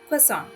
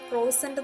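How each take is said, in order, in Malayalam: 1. 'kwa' എന്ന ശബ്ദത്തിലാണ് തുടങ്ങുന്നത്, മൂക്കിലൂടെയുള്ള ശബ്ദത്തിൽ അവസാനിക്കുന്നു. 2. 'kro' എന്ന ശബ്ദത്തിലാണ് തുടങ്ങുന്നത്, 't' യിൽ അവസാനിക്കുന്നു. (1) "അതിന്റെ കറക്റ്റ് പ്രൊനൗൺസിയേഷൻ" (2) "അത് ക്രോസന്റ് എന്നൊക്കെയാണ് പറഞ്ഞ് കേൾക്കാറുള്ളത്, പക്ഷെ അങ്ങനല്ല കേട്ടോ"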